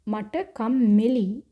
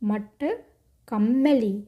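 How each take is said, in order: First: The vowel is not like 'e' in 'end'. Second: The vowel is like 'e' in 'end'. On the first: The speaker calls it wrong. "ये जो आप उच्चारण मत कीजिए मट कम्मेली, ऐसा नहीं" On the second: The speaker calls it right. "उच्चारण एंड का ए साउंड आना चाहिए"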